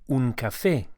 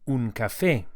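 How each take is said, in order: No difference in how they are said.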